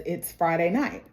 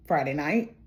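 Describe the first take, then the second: First: Said in the usual way. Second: "Friday night?" as a low question, rising on night; questioning echo. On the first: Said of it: "he says". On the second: Retold or imitated. Fiancée questioning the date he gave, "Friday night" rising at the end. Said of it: "she says".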